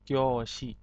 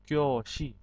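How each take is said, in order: The two takes are said the same way.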